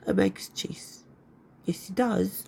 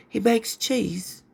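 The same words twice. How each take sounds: First: Hushed, whispered repeat; whispered aside. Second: Said in the usual way. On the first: Real, not acted. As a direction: drop to a secretive whisper. Hushed repeat of her own remark.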